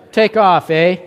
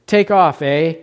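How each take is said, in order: First: A light Canadian "Take off, eh?" with a lifted "eh"; playful hint of a Canadian accent. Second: Said in the usual way. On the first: Shown as a demonstration. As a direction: toss off a mock Canadian "take off, eh". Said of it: "In honor of our Canadians". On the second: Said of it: "they correctly hear what".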